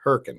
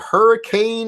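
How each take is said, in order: First: The name is clipped short, like herkin. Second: The name is said in full, like hurricane. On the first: The speaker is from the area. The speaker calls it right. "that's how we pronounce it, Herkin" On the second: The speaker is not from the area. The speaker calls it wrong. "he doesn't know how to say hurricane"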